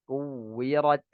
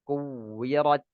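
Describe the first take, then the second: Both takes have the same delivery.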